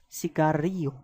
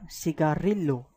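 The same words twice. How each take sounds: First: The double L is sounded as a Y. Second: The double L is sounded as an L. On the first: The speaker calls it right. "the double L is an alphabet pronounced as I A" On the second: The speaker calls it wrong. "This is not cigarillo"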